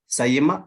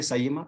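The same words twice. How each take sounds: First: سائمہ said with a clear ya, "sa-ye-ma"; ya pronounced. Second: سائمہ said halfway between hamza and ya; in-between sound. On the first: Teacher demonstrates سائمہ with the ya sound to the class. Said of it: "اگر ہم یا کو یہاں use کر لیں". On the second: Teacher shows the class the in-between سائمہ. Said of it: "ان کے بیچ والا". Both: Shown as a demonstration.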